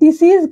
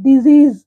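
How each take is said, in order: First: The middle consonant is a hissing s sound. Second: The middle consonant is a buzzing z sound. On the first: The speaker calls it wrong. "అది డిసీజ్ కాదు" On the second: The speaker calls it right. "డిజీజ్ అనాలి"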